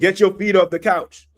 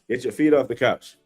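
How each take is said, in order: First: It is said loudly, with a raised voice. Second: It is said calmly, at normal volume.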